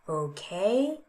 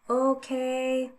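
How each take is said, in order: First: The pitch rises across the word. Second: The pitch stays level across the word.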